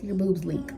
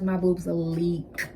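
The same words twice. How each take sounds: First: Said in the usual way. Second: "my boobs leak" drawn out very slowly, each word weighted; slow emphasis. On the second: Real, not acted. Repeated for emphasis.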